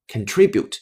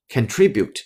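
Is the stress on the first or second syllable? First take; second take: second; second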